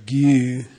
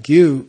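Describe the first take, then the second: First: The vowel is drawn out noticeably long. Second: The vowel is neither clipped nor lengthened. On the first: It means acquainted with. "Then one is longer" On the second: It means a cause. "without either cutting or lengthening"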